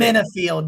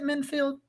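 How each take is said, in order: First: The name is said with three syllables. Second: The name is said with two syllables. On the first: The speaker calls it right. "That's right" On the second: The speaker calls it wrong. "I can never say his name right"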